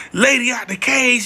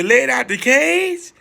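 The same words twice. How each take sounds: First: Said in the usual way. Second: Put-on a light foreign accent on "Lady out the cage?", slow and questioning; slight accent. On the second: Owner on the phone repeating it with a slight accent. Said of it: "With a little accent".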